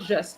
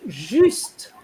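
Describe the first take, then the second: First: The word is said with an English pronunciation. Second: The word is said with a French pronunciation. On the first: The speaker calls it wrong. "not just. Just is like English" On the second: The speaker calls it right. "Is juste"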